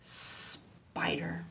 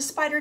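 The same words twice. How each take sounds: First: SPIDER with a long hissed S; long snake sound. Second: Said in the usual way. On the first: Shown as a demonstration. Teacher gives children a last turn, long S. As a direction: hold the S, then say the rest of spider. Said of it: "last chance to say our spider word".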